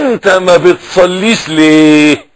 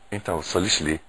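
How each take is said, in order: First: The question is called out loudly. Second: The question is said softly and slowly. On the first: "ناديت ... طب ما تزعقش" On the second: "بالراحة واحدة واحدة عليك"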